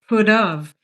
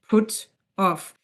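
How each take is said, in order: First: The t runs straight into the vowel. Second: The two words are said separately. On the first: The speaker calls it right. "if you link it ... we put the t before the o" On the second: The speaker calls it wrong. "If you want to pronounce it like in an unnatural way, you just say put off"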